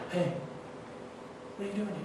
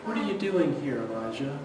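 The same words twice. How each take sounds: First: Intimate whisper, much softer. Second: Softer, fading to near silence on Elijah; hushed voice of God. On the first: God whispering to Elijah in the wilderness, soft whisper. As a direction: breathe it like a secret in his ear. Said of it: "The Lord just whispers to Elijah". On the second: God quietly calling Elijah in the cave, hushed. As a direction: speak it gently, let the name almost vanish. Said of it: "a voice came to him and said". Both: Retold or imitated.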